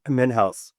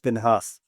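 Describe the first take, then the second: First: The second syllable sounds like 'house'. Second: The second syllable sounds like 'has'. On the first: The speaker calls it wrong. "not House. I don't know why people make that mistake" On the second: The speaker calls it right. "but it's Minhas"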